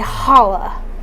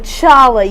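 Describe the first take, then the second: First: The word begins with a breathy h sound. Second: The word begins with a hard ch sound. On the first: The speaker calls it right. "you say challah" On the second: The speaker calls it wrong. "you don't say challah"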